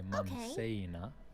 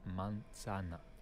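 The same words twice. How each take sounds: First: The A vowels are said as ay. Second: The A vowels are said as ah. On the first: The speaker calls it wrong. "We never say A. We don't say manzana" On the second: The speaker calls it right. "we always say ah"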